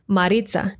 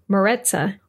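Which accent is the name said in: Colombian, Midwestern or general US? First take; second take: Colombian; general US. First: The name is said in a Colombian accent. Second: The name is said in a general US accent. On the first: "pronounce my name with their Colombian accents" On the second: "my parents and my friends from the United States pronounce my name more like"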